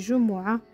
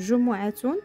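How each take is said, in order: First: The word ends in a soft h, no t. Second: The word ends with a pronounced t and -un. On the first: "quand on parle, on dit Jumu'ah. Et on ne prononce pas ça" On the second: "C'est le Jumu'atun"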